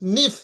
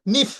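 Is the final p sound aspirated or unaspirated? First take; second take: aspirated; aspirated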